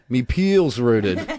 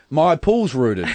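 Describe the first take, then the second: First: It is said broad, like 'me peel's'. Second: It is said with standard 'my' and 'pool' vowels. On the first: The speaker calls it right. "the correct pronunciation should be me peel's rooted" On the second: The speaker calls it wrong. "I was saying, oh, my pool's rooted like an idiot"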